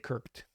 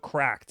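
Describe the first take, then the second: First: The name is said like kirked. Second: The name is said like the word cracked. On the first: This is the speaker's own habit. "I say Kirked" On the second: This is how the company says its name. "as I think how you say the name of the company"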